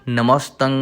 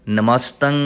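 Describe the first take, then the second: Both takes have the same delivery.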